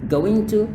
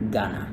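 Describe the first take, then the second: First: Two full words are said: going, then to. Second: The words blend into one short word, gonna. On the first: "going to itu agak sedikit, you know, kayak kaku kalau dilafalkan" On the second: "lebih singkat dibilang Ghana"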